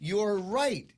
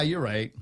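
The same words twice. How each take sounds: First: It is said earnestly, with apparent conviction. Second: It is said offhandedly, without real conviction. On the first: The speaker truly agrees. The speaker calls it right. "you got to say it with sincerity" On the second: The speaker just wants to end the argument. The speaker calls it wrong. "it's not just you know. Yeah"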